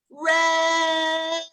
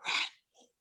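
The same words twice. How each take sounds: First: High, drawn-out shout. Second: Drawn-out whispered name. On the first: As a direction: shout the name out long and high. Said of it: "we're gonna shout it". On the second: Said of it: "we're going to whisper it". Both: Shown as a demonstration.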